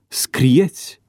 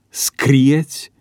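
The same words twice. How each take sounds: First: The stress is on the second syllable. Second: The stress is on the first syllable. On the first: The verb is treated as second conjugation. The speaker calls it wrong. "pronunția cu accentul schimbat" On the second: The verb is treated as third conjugation. The speaker calls it right. "Corect se spune"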